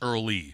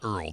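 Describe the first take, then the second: First: The name is said as two syllables. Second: The name is said as one syllable. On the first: The speaker calls it right. "Earl had an E at the end of Earl" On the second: The speaker calls it wrong. "That's not Earl"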